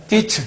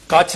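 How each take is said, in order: First: ਕਿਛ pitched up, as "kichh"; short, quick i in ਕਿਛ; correct short i. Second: ਕੱਛ with an a, as "kachh"; wrong vowel. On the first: Teacher correcting the word, ਕਿਛ with short i. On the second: Teacher showing what not to say, ਕੱਛ with a vowel a. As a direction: put an a sound in ਕੱਛ. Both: Shown as a demonstration. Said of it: "ਕੱਛ ਨਹੀਂ ਕਹਿਣਾ".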